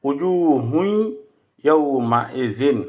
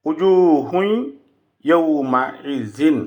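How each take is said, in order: Both takes have the same delivery.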